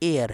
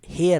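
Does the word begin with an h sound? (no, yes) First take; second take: no; yes. First: The word begins with a vowel sound. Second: The word begins with an h sound. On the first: The speaker calls it right. "ये हेयर नहीं एयर है" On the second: The speaker calls it wrong. "ये हेयर नहीं एयर है"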